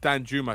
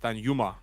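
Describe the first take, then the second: First: The second name starts with a 'j' sound. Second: The second name starts with a 'y' sound. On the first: The speaker calls it wrong. "It's not Dan Juma" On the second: The speaker calls it right. "it's Dan Yuma. ... you don't pronounce the J in Dutch"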